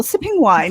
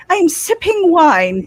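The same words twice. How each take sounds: First: Said in the usual way. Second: A hint of posh wine sipper; prim with pinkies up. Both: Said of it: "Pinkies up".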